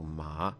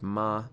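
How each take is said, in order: First: The pitch rises like a question. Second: The pitch stays high and level. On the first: It means hemp. "it's a rising tone, so it's as if you're asking like a question" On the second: It means mother. "it's a high flat tone"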